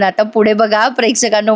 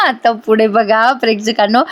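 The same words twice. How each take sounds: First: Said in the usual way. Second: Laughing through आता पुढे बघा प्रेक्षकांनो. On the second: Real, not acted. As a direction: chuckle into the line to the viewers.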